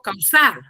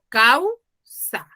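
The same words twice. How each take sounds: First: The stress is on the second syllable. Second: The stress is on the first syllable. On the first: The speaker calls it wrong. "yo no digo causa" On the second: The speaker calls it right. "digo causa"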